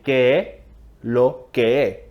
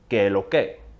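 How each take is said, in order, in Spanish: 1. La frase se dice sin los sonidos S. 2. La frase se dice rápido y cortada. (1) "cortamos las S" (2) "dicho rápido"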